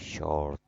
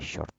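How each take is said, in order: First: The first sound is held longer. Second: The first sound is kept short. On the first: The speaker calls it right. "We say short. So we stay a little bit on calling the first sound" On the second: The speaker calls it wrong. "We don't say short"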